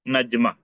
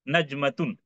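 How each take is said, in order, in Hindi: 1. शब्द सादे स्वर 'a' पर खत्म होता है। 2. शब्द पूरे अंत '-atun' के साथ खत्म होता है। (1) "आप इसको हम पढ़ते हैं।" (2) "असल में हम इसको कैसा पढ़ेंगे?"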